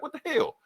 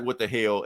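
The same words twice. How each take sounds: First: "What the hell?" shot up very high in startled surprise; shocked squeal after getting zapped; shocked yelp. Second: Said in the usual way. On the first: Retold or imitated. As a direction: yelp it as if jolted by lightning. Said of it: "He was like". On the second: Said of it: "And Cap's like".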